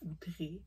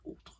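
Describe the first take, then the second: First: The word ends with a clear final vowel sound. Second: The word ends without a final vowel sound. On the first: This is how English speakers say the name. "les anglophones disent Outré, parce que quand il y a le E, mais l'accent aigu" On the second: This is how the speaker personally says the name. "mais moi, je dis Autre"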